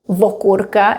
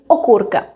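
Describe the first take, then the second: First: The word starts with an added v sound. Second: The word starts directly with a vowel. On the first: This is the informal spoken form. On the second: This is the standard form.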